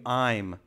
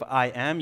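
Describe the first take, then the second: First: The two words are drawn together into one. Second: The two words are said fully and separately. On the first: The speaker calls it right. "you do I'm" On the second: The speaker calls it wrong. "Instead of I am"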